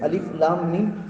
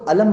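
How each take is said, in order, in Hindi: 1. हर हर्फ़ का नाम अलग-अलग पढ़ा जाता है। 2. हर्फ़ों को एक लफ़्ज़ में जोड़ दिया जाता है। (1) "अलिफ को लाम को मीम को काट काट के अलग अलग जुदा जुदा पढ़ते हैं" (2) "हम उसको अलम नहीं पढ़ते"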